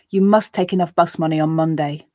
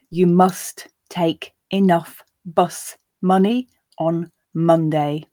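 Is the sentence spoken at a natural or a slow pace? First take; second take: natural; slow. First: The sentence is spoken at a natural pace. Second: The sentence is spoken at a slow pace. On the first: "then twice at a more natural pace" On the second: "I'll read it slowly the first time"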